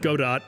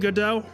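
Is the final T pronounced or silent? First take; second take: pronounced; silent. First: The final T is pronounced. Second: The final T is silent. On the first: "I always said Godot" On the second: "technically Godot ... it's probably a silent T at the very end"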